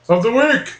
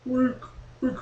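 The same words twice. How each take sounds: First: Said in the usual way. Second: Soft echo of WEEK; self-made echo. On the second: Pretend. Host insisting there is echo, echoing WEEK softly. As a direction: repeat WEEK short and softer, like an echo dying away. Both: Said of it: "It's an echo usually".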